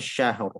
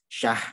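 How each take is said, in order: First: The final r sound is clearly pronounced. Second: The final r sound is dropped. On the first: The speaker calls it right. "Di akhir kalimat harus jelas dua-duanya" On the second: The speaker calls it wrong. "syahrnya rohnya hilang"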